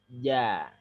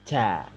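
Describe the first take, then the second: First: The j is crisp, made mid-tongue, without breath. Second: The j is fronted, with breath escaping. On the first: The speaker calls it right. "jadinya ja" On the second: The speaker calls it wrong. "Jadi bukan ja. Kalau ja itu yang nempel agak ke depan. Tidak perlu ada nafas yang keluar"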